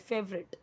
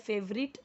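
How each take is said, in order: First: The word is said in a shortened form. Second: The word is read out as it is spelled. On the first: The speaker calls it right. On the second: The speaker calls it wrong.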